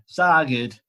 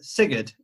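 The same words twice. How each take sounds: First: Sigurd with broad ah, SAH-gid; Yorkshire Sigurd. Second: Sigurd with short i, SIG-əd; corrected Sigurd. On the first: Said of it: "Sigurd's more Yorkshire". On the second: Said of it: "you're pronouncing Sigurd weird". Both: Shown as a demonstration.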